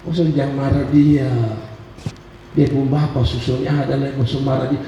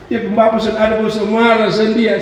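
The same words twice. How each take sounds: First: Mock-soothing mother, pitched down and hushed; teasing mother. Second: Higher-pitched imitation of mother's teasing. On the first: Mother teases her upset youngest child, low mock-soothing voice. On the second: Mother needles her crying child, higher mock-teasing voice. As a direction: taunt the child in a raised voice. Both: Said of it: "mama saya selalu bilang begini".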